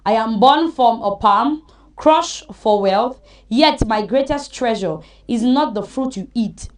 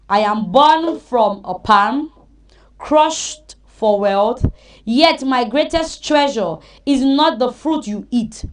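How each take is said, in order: First: It is read at normal speed. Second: It is read slowly.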